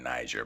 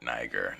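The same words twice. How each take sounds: First: The middle consonant sounds like a j. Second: The middle consonant is a hard g. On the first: The speaker calls it wrong. "Not Niger" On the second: The speaker calls it right. "but Niger. There was no J"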